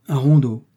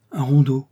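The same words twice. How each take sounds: First: Loud, disdainful echo with a falling end; lightly acted disdain. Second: Louder, automatic repetition; lightly acted absent-minded parroting; mechanical echo. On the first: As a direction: scoff mildly at RONDEAU, louder. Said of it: "fit dédaigneusement le jésuite". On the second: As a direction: echo it by rote. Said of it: "dit machinalement le curé". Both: A narrator's reading.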